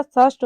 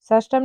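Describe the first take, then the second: First: षष्ठ ending straight on ṣṭh; correct form. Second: षष्टम with an added am ending; wrong form. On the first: Teacher giving the right form, षष्ठ without am. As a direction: say षष्ठ with no am at the end. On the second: Teacher rejecting the wrong form, षष्टम ending ṭam. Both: Shown as a demonstration. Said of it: "षष्टम नहीं होता".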